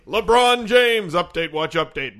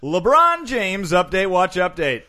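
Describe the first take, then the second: First: Slow, louder announcer echo; co-host echoes the segment title as a louder announcer. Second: Stretched-out segment announcer, louder; hyped segment intro for the listeners. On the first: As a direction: boom the title back slowly. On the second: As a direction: call out the segment title slowly. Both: Acted.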